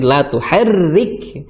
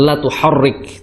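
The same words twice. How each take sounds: First: The r sound is thin and light. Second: The r sound is thick and heavy. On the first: The speaker calls it right. "tapi la tuharrik" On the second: The speaker calls it wrong. "Jangan tebal. Jangan la tuharrik"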